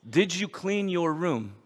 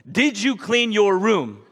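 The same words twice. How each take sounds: First: Slow, every word weighed; slow pointed question. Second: Slow and louder, Did punched; slow louder insistence. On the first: Father to daughter, slow pointed question. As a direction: press the question slowly, stress on did. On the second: Father to daughter, slow louder insistence. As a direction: insist slowly, leaning on Did. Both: Retold or imitated. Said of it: "And he says".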